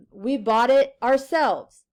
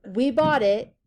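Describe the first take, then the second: First: "ourselves" leaned on, slow and a bit louder; slow the line and lean on "ourselves"; stress on ourselves. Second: Said in the usual way. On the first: Shown as a demonstration. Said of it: "Ourselves is emphasizing the antecedent we". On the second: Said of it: "If you take out ourselves".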